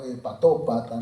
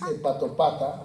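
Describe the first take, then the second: First: The stress falls on the syllable 'to'. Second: The stress falls on the syllable 'pa'. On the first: It names a patient with liver disease. The speaker calls it right. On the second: It sounds like calling a buddy a liver. The speaker calls it wrong.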